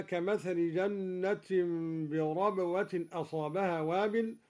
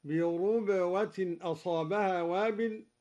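First: Said in the usual way. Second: بربوة said birubwatin, with u on the ر; damma on raa. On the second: Shown as a demonstration. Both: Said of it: "قرأ الدوري بضم الراء هكذا".

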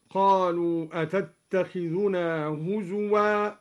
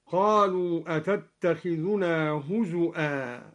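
First: هزوا recited with a plain waw, huzwa. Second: هزؤا with a clear glottal stop, huzu'a; hamza in هزؤا. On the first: Teacher reciting the standard form of هزوا. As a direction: say هزوا as huzuwa without hamza. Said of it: "قرأ الدوري بهمز الواو". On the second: Teacher demonstrating al-Duri's hamzated هزؤا. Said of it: "بهمز الواو على الأصل، هكذا". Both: Shown as a demonstration.

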